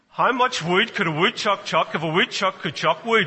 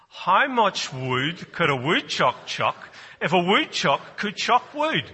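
First: It is said at a quick pace. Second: It is said at a slow pace.

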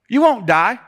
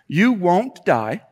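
First: It is spoken in a southern American accent. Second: It is spoken in a neutral accent. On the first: The speaker calls it wrong. "I don't know why I just put a southern accent on" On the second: The speaker calls it right. "I'm going to try to say this"

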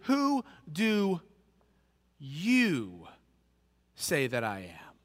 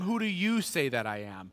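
First: The word 'you' is stressed. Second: The word 'you' is not stressed.

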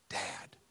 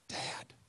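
The two takes are said the same way.

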